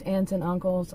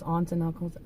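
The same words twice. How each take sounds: First: "aunts" said like "ants"; short-a aunt. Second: "aunts" said like "ahnts"; broad-a aunt. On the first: Vlogger offering one way to say "aunts", sounding like "ants". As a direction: say "aunts" with the a of "cat". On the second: Vlogger offering the other way to say "aunts", as "ahnts". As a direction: say "aunts" with an open ah vowel. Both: Shown as a demonstration. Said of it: "however you pronounce aunt or aunt".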